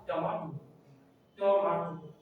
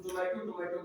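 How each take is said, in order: First: टमाटो with a long aa, tuh-MAA-to; right pronunciation. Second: टोमेटो with an ay in the middle; softer, lower misreading टोमेटो; wrong pronunciation. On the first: Teacher correcting the usual word, right pronunciation. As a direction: model टमाटो with MAA in the middle. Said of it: "pronunciation होगा". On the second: Teacher quoting what we say, wrong pronunciation. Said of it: "but इसका right". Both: Shown as a demonstration.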